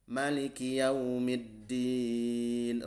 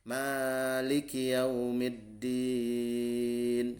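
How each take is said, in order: First: The first vowel of Maliki is said short. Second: The first vowel of Maliki is held long. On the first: "Rakaat kedua mimnya dibaca pendek" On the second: "Rakaat pertama baca bi itsbatil alif"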